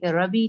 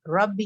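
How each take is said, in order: First: रबी with a short single b; the wrong way, रबी without shadda. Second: रब्बी with a held doubled b; रब्बी with shadda, not रबी. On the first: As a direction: say रबी quickly, no doubling. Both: Shown as a demonstration. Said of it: "रबी नहीं हो".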